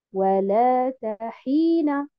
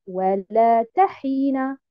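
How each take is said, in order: First: Walata hina slowly, with stress on the lam and the ha; correct walata hina. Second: Walata hina with stress on the ta; wrong walata hina. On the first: Teacher models walata hina for students. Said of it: "je dis walata hina". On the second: Teacher contrasts the wrong walata hina. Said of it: "et non pas". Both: Shown as a demonstration.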